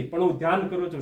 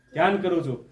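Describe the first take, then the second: First: Said in the usual way. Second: ધ્યાન hit firmly, the rest falls away; stress on ધ્યાન. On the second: Shown as a demonstration. Teacher drilling students, ધ્યાન given firm stress. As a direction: lean on ધ્યાન for the class. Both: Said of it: "શું કરું છું?".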